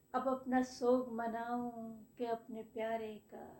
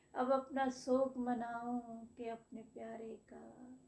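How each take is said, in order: No difference in how they are said.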